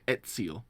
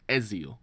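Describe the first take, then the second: First: The middle consonant sounds like ts. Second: The middle consonant sounds like z. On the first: This is the Italian way of saying it. The speaker calls it right. "I remember them saying Ezio" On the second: This is the way the speaker was saying it. The speaker calls it wrong. "instead of Ezio"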